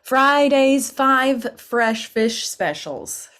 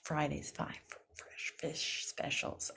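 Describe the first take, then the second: First: Slow tongue twister. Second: Whispered quick run through; fast tongue twister. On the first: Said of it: "here's another one". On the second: Coach saying the twister fast for practice. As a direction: rattle it off under your breath. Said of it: "Say that fast". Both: Shown as a demonstration.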